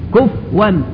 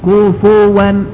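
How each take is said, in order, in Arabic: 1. لا توجد حركة بعد f. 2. يأتي بعد f صوت u قصير. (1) "من الأخطاء الشائعة تسكين الفاء ... غلط" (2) "الفاء مضمومة في القراءتين"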